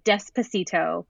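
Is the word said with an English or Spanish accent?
English. It is pronounced with an English accent.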